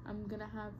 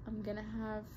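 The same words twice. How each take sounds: The two takes are said the same way.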